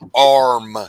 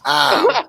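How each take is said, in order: First: The word is said with a clear r sound. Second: The word is said so it sounds like aim. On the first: The speaker calls it right. "Until you can pronounce it, you're not getting in. Say R" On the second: The speaker calls it wrong. "He said, "Arm." ... he said, "A I M.""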